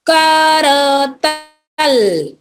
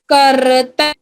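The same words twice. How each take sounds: First: करतल stretched slowly, falling at the end; slow syllable reading. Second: Said in the usual way. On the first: Shown as a demonstration. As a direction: drag out करतल for the kids to copy. (करतल को धीरे खींचकर) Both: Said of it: "तीन वाले शब्द देखते हैं".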